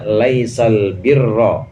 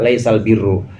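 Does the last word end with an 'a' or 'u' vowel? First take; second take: a; u. First: The last word ends with an 'a' vowel. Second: The last word ends with a 'u' vowel. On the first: "Imam Hafs dan Imam Hamzah membaca laisal birra nasab" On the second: "tapi boleh juga"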